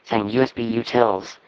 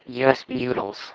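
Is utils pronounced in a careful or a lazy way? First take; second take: careful; lazy. First: Utils is said in the usual careful way. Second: Utils is said in a relaxed, lazy way. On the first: This is the usual way to say it. "much easier than saying USB utils" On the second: This is how a former coworker said it. "It's just so lazy and beautiful"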